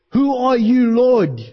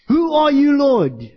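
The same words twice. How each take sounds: First: A startled, urgent question to an unseen voice; Saul's stunned question. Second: Higher and louder, a pleading cry; Saul crying out. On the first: Preacher voicing Saul asking the voice from heaven, startled and urgent. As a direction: ask it like a man just thrown to the ground. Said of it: "Saul responds like this". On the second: Preacher voicing Saul crying out to the Lord, louder and pleading. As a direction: call it out toward heaven, then drop on Lord. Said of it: "when he cried out and he said". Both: Retold or imitated.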